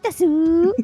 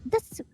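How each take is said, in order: First: The final vowel is clearly pronounced. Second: The final vowel is nearly silent. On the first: The speaker calls it wrong. "you would just go Desu Desu Desu" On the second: The speaker calls it right. "it should be like Des Des Des because the U is very ... very very silent"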